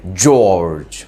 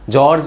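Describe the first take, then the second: First: The name is said with an American accent. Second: The name is said with an Indian accent. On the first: The speaker calls it right. "ऐसे ऐसे pronounce करते हैं वो लोग" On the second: The speaker calls it wrong. "जॉर्ज नहीं pronounce करते"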